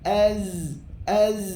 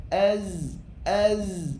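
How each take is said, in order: No difference in how they are said.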